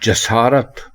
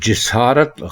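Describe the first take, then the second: First: The first vowel is an 'a' sound. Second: The first vowel is an 'i' sound. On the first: The speaker calls it right. "जसारत दुरुस्त है" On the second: The speaker calls it wrong. "जिसारत गलत है"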